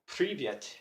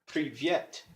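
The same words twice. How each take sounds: First: The stress is on the first syllable. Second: The stress is on the second syllable. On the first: The speaker calls it wrong. "I've been stressing the first syllable" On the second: The speaker calls it right. "it's actually stressed Privyet"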